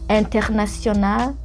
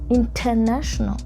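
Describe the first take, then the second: First: It is said with a French pronunciation. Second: It is said with an African accent. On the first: "that's French" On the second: "let's turn it to my African accent"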